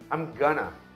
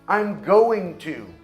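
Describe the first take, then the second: First: Going to blends and reduces to gonna. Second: Going to is said fully and separately.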